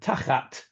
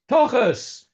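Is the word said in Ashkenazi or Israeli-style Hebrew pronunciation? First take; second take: Israeli; Ashkenazi. First: It has Israeli-style vowels and a final t. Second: It has Ashkenazi vowels and a final s.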